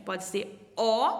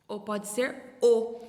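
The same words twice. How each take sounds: First: "O" said slowly with the first of the two sounds of the letter; one O sound. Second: "O" said slowly with the contrasting second sound of the letter; other O sound. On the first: Teacher demonstrating the first sound of the letter O to children. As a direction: draw out "O" so the children hear its sound. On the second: Teacher demonstrating the second sound of the letter O to children. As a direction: draw out "O" in its other sound against the first take. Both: Shown as a demonstration. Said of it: "ela pode ter dois sonzinhos diferentes".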